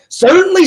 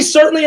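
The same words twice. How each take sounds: First: High, sly witch voice, pitched well up; Wicked Witch impression. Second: Wicked Witch echo. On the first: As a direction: purr it like a scheming witch. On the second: Retold or imitated. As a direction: repeat it like a scheming witch, winding down. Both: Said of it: "the scene before where she's like".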